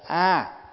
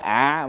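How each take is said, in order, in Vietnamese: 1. Âm tiết này được đọc với thanh ngang. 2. Âm tiết này được đọc với thanh nặng. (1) "Ví dụ như mình niệm Nam Mô A" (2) "chứ không phải ạ"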